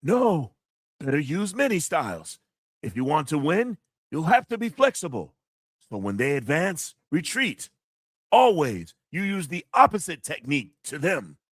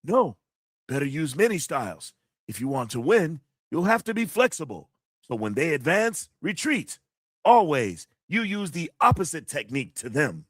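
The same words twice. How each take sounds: First: Lightly voiced old kung fu master, a touch higher; a hint of a wise sifu giving advice; martial arts master voice. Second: Lightly voiced kung fu master again; a hint of a sifu teaching; martial arts master voice. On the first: Streamer reads a kung fu movie quote in the master's voice. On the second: Streamer repeats the quote in the master's voice. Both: Shown as a demonstration. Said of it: "I try to do the voice too".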